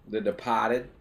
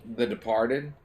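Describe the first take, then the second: First: DEPARTED in a Boston accent, R dropped. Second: Said in the usual way. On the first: Shown as a demonstration. Naming the film for a Boston scene, DEPARTED with a dropped-R Boston accent. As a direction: say DEPARTED Boston-style, "de-PAH-ted".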